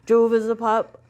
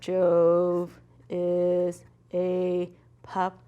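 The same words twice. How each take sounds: First: The sentence is read very quickly. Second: The sentence is read very slowly. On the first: "if I'm reading that fast" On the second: "you also shouldn't read too slow"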